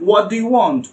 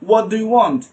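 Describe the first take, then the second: The two takes are said the same way.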